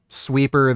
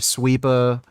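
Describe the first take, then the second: First: The final R sound is clearly pronounced. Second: The final R sound is dropped. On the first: "instead of saying, like, sweeper" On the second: "they'll say sweepa"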